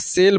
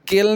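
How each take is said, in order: First: The word begins with an s sound. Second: The word begins with a k sound. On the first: The speaker calls it right. "सेल बोलेंगे" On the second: The speaker calls it wrong. "केल नहीं बोलेंगे"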